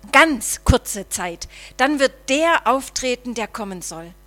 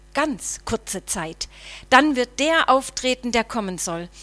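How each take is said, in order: Both takes have the same delivery.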